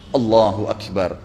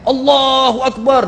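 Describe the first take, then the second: First: It is said softly. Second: It is shouted loudly.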